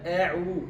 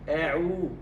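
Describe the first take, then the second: First: The opening sound is light and thin. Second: The same.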